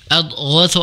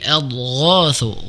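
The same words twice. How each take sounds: First: The vowel after 'gh' is held short. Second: The vowel after 'gh' is held long. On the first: The speaker calls it wrong. "Jadi bukan pendek. Jadi bukan adghatsu ahlam" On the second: The speaker calls it right. "Gho di situ dipanjangkan"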